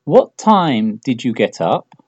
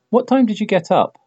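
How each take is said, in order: First: Slow, careful, word by word; slow model question. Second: Said in the usual way. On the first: Shown as a demonstration. Teacher models the question slowly for students, slow and clear. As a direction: spell the question out slowly for learners. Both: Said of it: "piensa en la pregunta más lógica".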